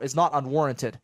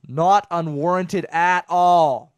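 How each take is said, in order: First: Said in the usual way. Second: "Not unwarranted at all" slow and loud, each word leaned on; emphatic repeat. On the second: Real, not acted. Host insisting the bad driver rating is deserved, slow loud emphasis on "Not unwarranted at all".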